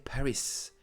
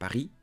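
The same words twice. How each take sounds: First: The final letter is pronounced at the end. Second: The final letter is silent at the end. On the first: The speaker calls it wrong. "Don't say Paris" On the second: The speaker calls it right. "do not pronounce them"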